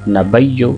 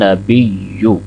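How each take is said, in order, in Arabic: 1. الصوت بعد الباء هو 'a'. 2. الصوت بعد الباء هو 'i'. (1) "बाज़ आप बा के ऊपर ज़बर पढ़ देते हैं ... नबिय्यु गलत है" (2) "तो बा के नीचे ज़ेर है"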